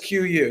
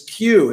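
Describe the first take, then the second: First: The name is said as two separate letters. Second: The name is said as one run-together syllable. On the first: The way everyone else actually says it. "Everybody says Q U" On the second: The way the company itself intended it. "run the letters together and just announce it as Q, as one word"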